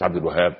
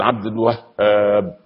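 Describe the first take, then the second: First: عبد الوهاب with a single light ه, no doubling; wrong way. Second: عبد الوهاب said slowly with the ه doubled; correct shadda. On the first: Preacher mocking the common mispronunciation, quick and light. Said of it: "مش عبد الوهاب". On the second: Preacher showing the right way to say the name, slow and careful. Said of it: "لازم نقول". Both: Shown as a demonstration.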